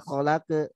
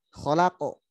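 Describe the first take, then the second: First: Kholake said thin, without the thickened echo; the wrong way, kholake with a light flat ending. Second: Kholako with a heavy, full bounce on the end; thickened echo. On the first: Teacher shows the wrong reading of kholake, thin. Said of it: "bukan kholakenal, kholake, bukan kholake". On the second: Teacher models the correct thick bounce, full. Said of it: "Tebalkan pantulannya". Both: Shown as a demonstration.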